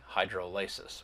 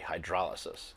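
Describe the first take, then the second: First: The stress falls on the syllable ly. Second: The stress falls on the syllable dro. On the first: The speaker calls it wrong. "We don't say hydrolysis" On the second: The speaker calls it right. "we say hydrolysis"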